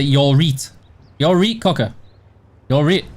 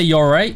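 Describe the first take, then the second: First: "reet" with a long ee; Yorkshire "You're reet, cocker". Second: Said in the usual way. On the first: Shown as a demonstration. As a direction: clip right into Yorkshire "reet". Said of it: "you say". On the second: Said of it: "You don't say".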